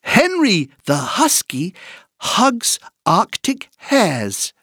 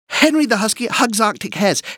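First: The sentence is said at a moderate pace. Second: The sentence is said at a very fast pace.

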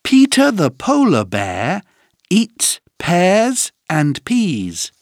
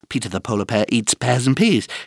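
First: The sentence is said at a normal pace. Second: The sentence is said at a very fast pace.

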